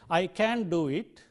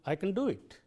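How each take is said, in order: First: The word can is stressed with a full vowel. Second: The word can is unstressed with a weak vowel. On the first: The speaker calls it wrong. "I don't say" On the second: The speaker calls it right. "It is unstressed and therefore weakened into"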